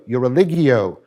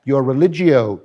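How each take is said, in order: First: Religio said as re-LIG-ee-oh; hard g. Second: Religio said with a j sound, re-LIJ-ee-oh; soft g. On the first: Lecturer offering the other of two pronunciations, religio with hard g. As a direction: say religio with g as in get. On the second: Lecturer offering one of two pronunciations, religio with soft g. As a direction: say religio with g as in gem. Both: Shown as a demonstration. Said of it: "I don't know which pronunciation to use".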